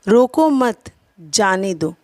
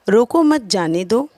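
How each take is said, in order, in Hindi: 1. शब्द 'मत' के बाद विराम है। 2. यह बिना किसी विराम के एक ही लय में कहा जाता है। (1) "जाने के विषय में कहा जा रहा है" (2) "पहले वाक्य में कही गई बातें अस्पष्ट हैं"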